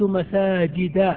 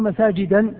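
First: The word ends without an added n sound. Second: The word ends with an added n sound. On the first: The speaker calls it right. "تقول رأيت مساجد" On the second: The speaker calls it wrong. "لا تقول مساجدا بالتنوين"

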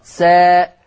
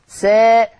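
First: The vowel is a fully open a. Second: The vowel leans slightly toward e. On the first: "مسار الفتح هكذا" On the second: "هذا هو التقليل"

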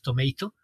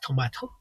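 First: The word is said in an American accent. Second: The word is said in a British accent. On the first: "en el inglés americano es tomato" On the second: "en el inglés británico es tomato"

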